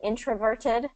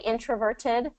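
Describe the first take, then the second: First: The middle consonant is a crisp T sound. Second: The same.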